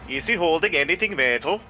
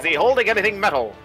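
First: It is spoken in a Norwegian-sounding accent. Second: It is spoken in an old transatlantic radio accent. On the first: The speaker calls it wrong. "you did Norwegian" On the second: The speaker calls it right. "There you"

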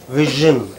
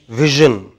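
The two takes are said the same way.

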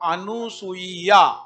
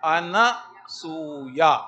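First: The second syllable is nu, with an extra i. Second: The second syllable is na, with no extra i. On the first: The speaker calls it wrong. "अशुद्ध लिखा हुआ है" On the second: The speaker calls it right. "ये सही उच्चारण"

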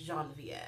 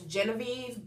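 First: The name is said the French way. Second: The name is said the American English way.

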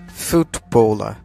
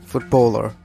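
First: It is said in a British accent. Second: It is said in an American accent.

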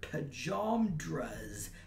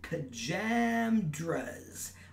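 First: The middle vowel sounds like the 'a' in water. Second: The middle vowel sounds like the 'a' in hammer. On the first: "to rhyme with dramas, with the middle A as in water" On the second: "with the middle A as in hammer"

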